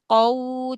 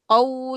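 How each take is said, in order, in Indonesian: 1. Suku kata itu diucapkan dengan halus, tanpa dorongan yang kuat. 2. Suku kata itu diucapkan dengan dorongan mendadak yang kuat. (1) "Wawnya memang sempurna monyong ya" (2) "jangan di qau, jangan dinaber"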